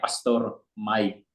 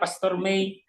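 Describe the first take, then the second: First: The name sounds like English 'my'. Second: The name sounds like the month 'Mei'. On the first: This is the correct form of his name. The speaker calls it right. "yang tepatnya Pastor Mai" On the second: This is how many people call him. The speaker calls it wrong. "banyak juga yang panggil saya Pastor Mei"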